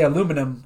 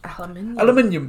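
First: It is said with four syllables, American style. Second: It is said with five syllables, British style. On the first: "they don't say aluminum over in Britain"

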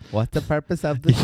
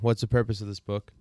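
First: It is said in a put-on Indian accent. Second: It is said in the speaker's normal accent.

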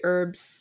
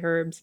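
First: It is said in an American accent. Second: It is said in a South African accent. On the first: "Americans say herbs" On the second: "We South Africans say herbs"

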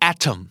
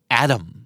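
First: The middle t is a clear, crisp t. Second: The middle t sounds like a soft d. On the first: "บริติชอาจจะออกเสียง atom นะครับตัวทีชัดเจนกว่านี้หน่อย" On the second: "เจ้าของภาษาในสำเนียงอเมริกันอ่านว่าแอดัม"

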